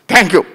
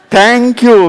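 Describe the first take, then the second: First: It is said in an angry, harsh tone. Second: It is said in a warm, kind tone. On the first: The thanks is not heartfelt. "some people say like that also" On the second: The thanks is sincere. "with a good heart. You say like this"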